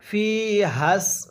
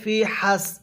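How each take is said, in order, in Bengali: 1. স্বরটি টানা হয় এবং ধ্বনিগুলো জোড়া লাগানো হয়। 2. ধ্বনিগুলো আলাদা রাখা হয়, জোড়া লাগানো হয় না। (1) "এই ফি এর মধ্যে এক আলিফ টান দেওয়ার পরে হাকে সিনের সাথে লাগাবো।" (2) "এখানে ফি হাস এরকমভাবে পড়লে হবে না।"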